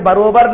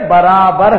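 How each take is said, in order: First: The word is said in a common, careless pronunciation. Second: The word is said in a careful, standard pronunciation. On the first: The speaker calls it wrong. "ارے برابر نہیں ہے رے" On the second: The speaker calls it right. "برابر ہے"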